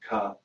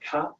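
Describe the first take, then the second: First: The syllable is said somewhat lower down. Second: The syllable is said high in the mouth. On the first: "down here" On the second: "up here"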